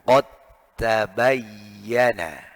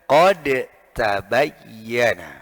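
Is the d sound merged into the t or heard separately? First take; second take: merged; separate. First: The d merges into the following t sound. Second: The d is sounded separately before the t. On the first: The speaker calls it right. "dibaca yang benar" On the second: The speaker calls it wrong.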